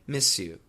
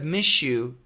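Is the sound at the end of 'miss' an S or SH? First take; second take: S; SH. First: The S before 'you' stays a clear S. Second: The S before 'you' sounds like SH. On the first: The speaker calls it right. "keep the S sound and say" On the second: The speaker calls it wrong. "instead of"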